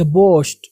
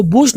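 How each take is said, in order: First: बोस्ट with a long "oh"; correct pronunciation. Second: बूस्ट with an "oo" vowel; wrong pronunciation. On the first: Teacher correcting learners, बोस्ट with long "oh". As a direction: say बोस्ट firmly as "bohst". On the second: Teacher warning learners, बूस्ट with "oo". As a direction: say बूस्ट like "boost". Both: Shown as a demonstration. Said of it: "इसको बूस्ट नहीं पढ़ेंगे".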